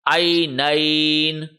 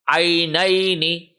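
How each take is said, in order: First: The second-last vowel is stretched, with no final vowel. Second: The second-last vowel is short, with a final vowel. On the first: The reading stops on this word. "when we are stopping here, then we will read it like this" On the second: The reading continues without stopping. "if we read continuously, then we will read this one as like this"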